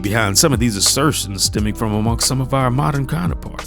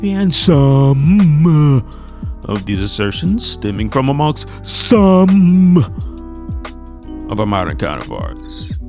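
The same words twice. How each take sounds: First: The word 'some' gets no special emphasis. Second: The word 'some' gets strong emphasis.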